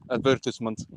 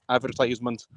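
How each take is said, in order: First: The word is said with a British pronunciation. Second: The word is said with an American pronunciation. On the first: "not ... or uh, advertisement" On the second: "American like pronunciation of"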